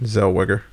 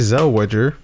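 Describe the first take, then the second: First: The surname is given its usual, standard pronunciation. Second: The surname is given a playful, nonstandard pronunciation. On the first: The speaker calls it right. "how do you pronounce her name?" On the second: The speaker calls it wrong. "That's not how you pronounce her name. I just like pronouncing it that way"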